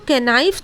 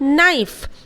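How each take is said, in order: First: It starts with a k sound before the n. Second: It starts directly with the n sound. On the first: The speaker calls it wrong. "इसको कैनाइफ तो कभी नहीं बोलते हैं" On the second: The speaker calls it right. "हम लोग क्या बोलते हैं?"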